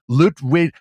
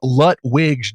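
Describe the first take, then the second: First: The name is said with a German-style accent. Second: The name is said with a plain English accent. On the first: "I tried to like German that up" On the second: "do it into plain English"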